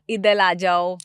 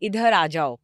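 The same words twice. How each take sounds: First: The words are said with a lisping baby-talk pronunciation. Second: The words are said with clear, full pronunciation. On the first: The speaker calls it wrong. "तोतला जो आप बोल रहे हो ना ... ऐसे करके" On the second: The speaker calls it right. "Clearly"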